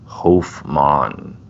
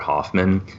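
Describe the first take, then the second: First: The name is said its own actual way. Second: The name is said the commonly heard way. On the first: This is how the name is really said. The speaker calls it right. "the name is actually pronounced Hofmann" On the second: This is how most people say it. The speaker calls it wrong. "everyone calls him Albert Hoffman"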